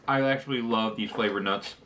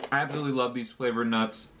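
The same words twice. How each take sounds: First: Talking through a mouthful of nuts; chewing while speaking with mouth full. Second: Said in the usual way. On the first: Real, not acted. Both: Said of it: "I don't wanna talk with my mouth full".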